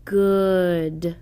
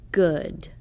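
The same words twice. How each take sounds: First: Good stretched slowly, sound by sound; drawn-out Good. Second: Good said quickly as one whole word; quick plain Good; read quickly. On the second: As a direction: snap out Good fast. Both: Shown as a demonstration. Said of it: "Short uh word should be read like this".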